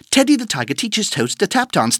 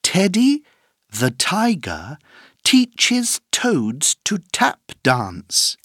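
First: The sentence is said at a very fast speed. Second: The sentence is said at a moderate speed.

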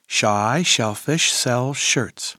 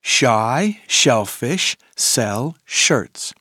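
First: The phrase is said at a fast pace. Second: The phrase is said at a moderate pace.

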